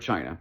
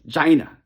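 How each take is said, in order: First: It is said in an ordinary, standard pronunciation. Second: It is said in an imitated, distinctive pronunciation. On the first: This is the usual way to say it. "for China" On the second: This is how a particular public figure says it. "he might say something like China"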